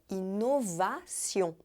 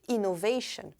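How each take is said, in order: First: It is said with a French pronunciation. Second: It is said with an English pronunciation. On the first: "Em francês não, é inovação" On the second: "só que pronuncia como innovation"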